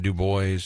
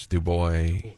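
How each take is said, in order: First: Put-on Du Bois with the final S sounded, doo-BOYZ; rejected pronunciation. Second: Put-on Du Bois as doo-BOY, silent S; correct pronunciation. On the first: Host showing the wrong county name, Du Bois as doo-BOYZ. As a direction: voice the S ending Du Bois, like boys. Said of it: "It's not Du Bois". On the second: Host checking the county name, Du Bois as doo-BOY. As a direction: drop the final S of Du Bois. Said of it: "That's the way you pronounce it". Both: Shown as a demonstration.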